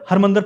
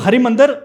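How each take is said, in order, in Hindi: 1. पहले 'r' के बाद कोई स्वर नहीं बोला जाता। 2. पहले 'r' के बाद छोटी 'i' की ध्वनि बोली जाती है। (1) "छोटी ई की मात्रा जब एंड में नहीं होती तो उसको कर देते हैं" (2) "लिखते हैं हरी है छोटी ई की मात्रा से"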